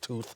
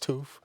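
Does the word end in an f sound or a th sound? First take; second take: th sound; f sound. First: The word ends with a th sound. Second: The word ends with an f sound. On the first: "instead of tooth" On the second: "T H becomes an F sound"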